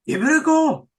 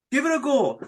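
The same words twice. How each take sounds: First: Bright, eager push to listeners; lively nudge. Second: Said in the usual way. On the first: Real, not acted. Host urging listeners to try, excited. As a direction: urge them on, louder and higher. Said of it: "And listeners, you know".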